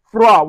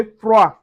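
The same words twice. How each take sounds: First: Froid with the D sounded; wrong froid. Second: Froid with the D silent, frwa; correct froid. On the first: Teacher showing the wrong froid with a D. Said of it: "we don't say froid". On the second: Teacher giving the right froid, D silent. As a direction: end froid on the vowel. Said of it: "we say froid". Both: Shown as a demonstration.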